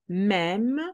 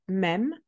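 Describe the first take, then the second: First: The word is said slowly and carefully. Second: The word is said quickly at full speed. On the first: "slow with translation" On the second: "Full speed"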